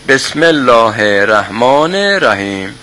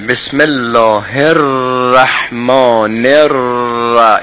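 First: The r in ar-Rahman is short and single. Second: The r in ar-Rahman is held and doubled. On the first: The speaker calls it wrong. "اگه تشدید رو نیاریم اینجوری میشه" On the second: The speaker calls it right. "این تشدید را رو دقت میکنید؟"

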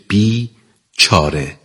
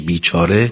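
First: There is a short pause between the two parts. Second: The two parts are joined without any pause. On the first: The person has no remedy or way out. "وقتی که مکسی میذاریم بین دو تا حرف" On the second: The person is miserable and wretched. "وقتی با هم میخونیم درستشو میشه بیچاره"

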